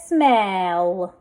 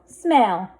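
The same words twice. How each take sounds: First: Smell drawn out, each sound held; blended slowly. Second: Said in the usual way. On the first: Shown as a demonstration. Teacher sounding out a word for readers, blended slowly. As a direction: stretch smell through to the l. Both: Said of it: "Let's read this".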